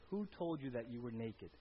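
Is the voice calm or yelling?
calm. It is read in a calm voice.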